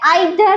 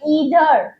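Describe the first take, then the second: First: The first vowel sounds like 'eye'. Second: The first vowel sounds like 'ee'. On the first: The speaker calls it wrong. "इसे आइधर नहीं बोलना है" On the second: The speaker calls it right. "इसे बोलना है ईधर"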